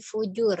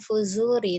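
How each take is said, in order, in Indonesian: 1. Konsonan di tengah adalah bunyi j. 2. Konsonan di tengah adalah bunyi z. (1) "tapi fujur ya" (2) "bukan fuzuri"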